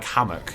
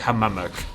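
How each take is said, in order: First: The word has two syllables with one m. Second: The word has three syllables, repeating 'mam'. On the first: The speaker calls it right. "Like hammock" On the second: The speaker calls it wrong. "You don't say hamammock"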